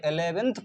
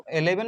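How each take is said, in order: First: इलेवेंथ with a clear th at the end; correct reading shown. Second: इलेवन as plain eleven, the wrong way; wrong reading shown. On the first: Teacher shows students the right reading, इलेवेंथ ending in th. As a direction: end इलेवेंथ on a firm th sound. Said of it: "इलेवेंथ पढ़ेंगे". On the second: Teacher shows students the reading to avoid, इलेवन without th. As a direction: say इलेवन with no th ending. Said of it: "इलेवन नहीं पढ़ेंगे". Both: Shown as a demonstration.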